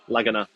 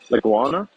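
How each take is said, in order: First: There is no w sound after the g. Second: There is a w sound after the g. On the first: The speaker calls it right. "There we go" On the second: The speaker calls it wrong. "I'm saying it wrong"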